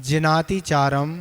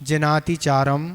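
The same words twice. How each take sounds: No difference in how they are said.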